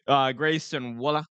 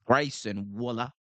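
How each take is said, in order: First: Said in the usual way. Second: Waller said the Australian way, as Wullah; Aussie accent. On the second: Shown as a demonstration. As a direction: give Waller an Aussie vowel and drop the r. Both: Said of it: "Gotta get the Aus-, the Aussie accent".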